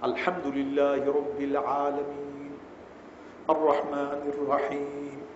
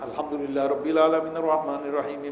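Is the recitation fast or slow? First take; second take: slow; fast. First: It is recited slowly, each verse kept separate. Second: It is recited quickly, with the verses run together. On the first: The recitation is done properly and carefully. The speaker calls it right. "তারতিলের সাথে পড়ো" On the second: The recitation is hurried and careless. The speaker calls it wrong. "এটা না ... জি না, জগা কিছুই না"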